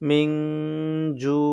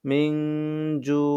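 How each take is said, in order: The two takes are said the same way.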